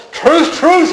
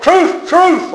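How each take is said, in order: First: Truth, truth pitched much higher; high ringing proclamation; proclaimed. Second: Truth, truth much higher; high ringing proclamation; proclaimed. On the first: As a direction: ring out the truth, truth. Voicing Jesus' opening words. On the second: Voicing Jesus' words again. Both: Acted.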